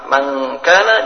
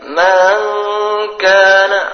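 First: The first word has a short vowel. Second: The first word has a lengthened vowel. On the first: The speaker calls it right. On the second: The speaker calls it wrong.

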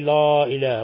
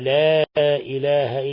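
First: The letters are said heavy and emphatic. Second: The letters are said thin and light. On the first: The speaker calls it wrong. "لا تقولي" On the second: The speaker calls it right. "خذي بالك بارك الله فيك من الحروف المرققة"

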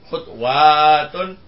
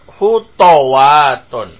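First: The t is followed directly by w, no vowel. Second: The t is followed by an a vowel. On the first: "tetap sukun huruf keduanya" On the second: "huruf yang kedua di fathah"

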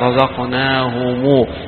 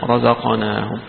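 First: The word ends with a lengthened U vowel. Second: The word ends on a closed M sound. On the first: The reciter links this word to the next. "فيشبع الضمة التي فيها فيحولها إلى واو" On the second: The reciter stops on this word. "لما يقرأها يقف عليها الجميع يقول رزقناهم"

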